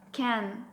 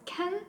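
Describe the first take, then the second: First: The vowel is full and clear. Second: The vowel is reduced to a weak schwa. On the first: "Strong form is can" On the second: "but weak form is can"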